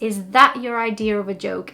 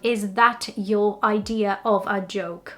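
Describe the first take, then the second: First: The words run together with linking sounds. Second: Each word is said separately without linking. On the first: "So it just becomes one sentence" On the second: "Instead of"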